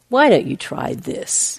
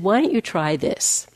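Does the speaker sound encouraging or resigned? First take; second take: resigned; encouraging. First: It is said in a resigned, giving-up tone. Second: It is said in a plain, encouraging tone. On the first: Nothing else has worked, so this is a last resort. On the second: It is a sincere suggestion to try something.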